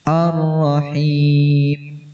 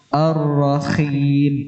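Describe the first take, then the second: First: The h is a smooth, soft breath from the throat. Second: The h is harsh and scraping, like kh. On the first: The speaker calls it right. "ambil dari tenggorokan tengah dengan angin yang halus" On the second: The speaker calls it wrong. "Jangan sampai seperti kha"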